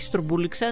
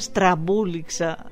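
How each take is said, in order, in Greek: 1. Το πρώτο φωνήεν ακούγεται σαν 'oo'. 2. Το πρώτο φωνήεν ακούγεται σαν 'a'. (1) "Όχι στρουμπούληξα" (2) "Να τα λέμε και σωστά"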